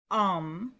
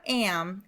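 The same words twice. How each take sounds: First: "am" with a long AH; correct Hebrew vowel. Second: "am" with the flat A of "ham"; mispronounced vowel. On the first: Teacher correcting the vowel, "am" said as "ahm". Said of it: "it's am". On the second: Teacher showing the mistake, "am" as in "ham". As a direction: say "am" like the English word in "I am". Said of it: "So it's not am". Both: Shown as a demonstration.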